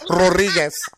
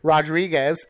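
First: The name is said with a Spanish accent. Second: The name is said with an American accent. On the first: The speaker calls it right. "Since I'm doing the Spanish way" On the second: The speaker calls it wrong. "since you do it the American way"

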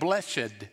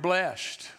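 First: The -ed ending is said as a separate syllable. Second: The word is said as a single syllable. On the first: It sounds more holy. "We make it sound a little more holy by saying blessed" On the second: It is the ordinary form of the word. "but it's really the word blessed"

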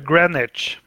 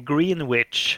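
First: Greenwich is pronounced the English way. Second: Greenwich is pronounced the Swedish way.

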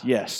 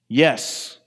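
First: It is said flatly and casually. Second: It is said loudly and emphatically.

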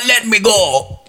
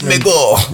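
First: It is said in a cartoonish Italian accent. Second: It is said in a Jamaican-Irish accent. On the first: "He sounded like Mario now" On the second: "he went into some sort of Jamaican Irish"

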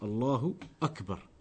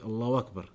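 First: 'Akbar' starts with a glottal stop. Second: A 'w' sound links into 'wakbar'. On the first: The speaker calls it right. "There is no wow in that. It's Allahu Akbar" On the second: The speaker calls it wrong. "People often they say it Allahu Akbar. When you're saying it, you're pronouncing a wow"

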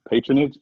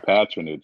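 First: The word is said the American way. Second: The word is said the British way. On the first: "Patronage is the American way" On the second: "Patronage is the British way"

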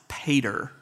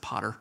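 First: The word does not sound like 'potter'. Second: The word sounds like 'potter'. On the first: "It's sometimes pronounced pater" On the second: "I'm a redneck from South Georgia, so I've always pronounced it potter. Sounds like the potter in the clay"

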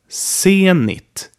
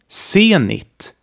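No difference in how they are said.

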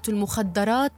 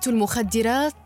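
First: The vowel after the 'd' is 'a'. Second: The vowel after the 'd' is 'i'. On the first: The speaker calls it wrong. "بفتح الدال خطأ شائع" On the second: The speaker calls it right. "تلفظ بكسر حرف الدال مع تجديده"

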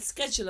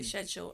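First: Schedule is said the American way. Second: Schedule is said the British way.

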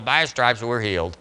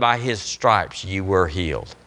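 First: It is said in an offhand, casual way. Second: It is said with firm, believing conviction. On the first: The words are said without real belief. The speaker calls it wrong. "oh yeah, well" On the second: The speaker truly believes the words. The speaker calls it right. "there's an inflection in faith"

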